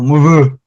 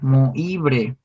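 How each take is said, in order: First: The name is said with a French-like pronunciation. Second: The name is read letter by letter, Spanish-style. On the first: "era francés el güey, entonces se pronuncia algo así como" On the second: "se escribe Moibre"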